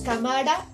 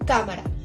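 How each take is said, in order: First: The stress is on the last syllable. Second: The stress is on the first syllable. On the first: The speaker calls it wrong. "no pronunciamos cámara ... no tiene el acento en la última" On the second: The speaker calls it right. "sino que pronunciamos cámara"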